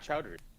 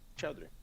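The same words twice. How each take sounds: First: The name is pronounced like the English word chowder. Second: The name is pronounced in its original non-English way. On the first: It is the simplified version given to Americans. The speaker calls it wrong. "I always give like the Americanized pronunciation" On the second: It is the proper form of the surname. The speaker calls it right. "it is supposed to be chowder, like you said it"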